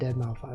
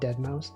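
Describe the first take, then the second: First: The name ends with the word five. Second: The name ends with an s sound. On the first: "I do unironically pronounce it Deadmau five" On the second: "How can you say a five is an S?"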